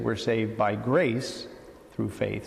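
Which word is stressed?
grace. The word grace carries the main stress. "So we tend to put more emphasis again on God's initiative"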